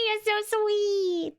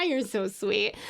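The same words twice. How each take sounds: First: High and very slow, cooed out; cooing. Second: Said in the usual way. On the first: Real, not acted. Streamer cooing back at a sweet chatter, high and slow. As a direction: coo it like melting at a compliment.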